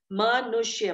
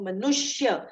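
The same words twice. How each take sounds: First: "मनुष्य" split as मा-नुष्य, first vowel opened out; word split up. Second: Said in the usual way. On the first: Shown as a demonstration. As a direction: break "मनुष्य" after its first syllable to show its roots. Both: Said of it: "मन और ईश".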